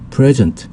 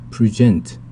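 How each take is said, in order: First: The stress is on the first syllable. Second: The stress is on the second syllable. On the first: It means the present time or a gift. "강세가 앞에 있으면 present 해서 현재도 되고요" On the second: It means to show or to give. "강세가 뒤에 오면 present"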